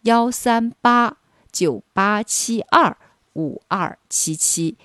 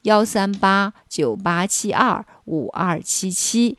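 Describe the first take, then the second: First: The number is said more slowly. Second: The number is said at normal speed.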